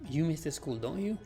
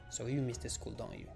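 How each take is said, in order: First: The voice rises at the end. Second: The voice falls at the end.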